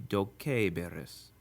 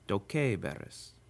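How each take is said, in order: First: The vowel before -ris is a short i. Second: The vowel before -ris is an e. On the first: This is the regular expected form. "it should be" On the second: This is the form that is actually used. "with a Romance pronunciation easily becomes"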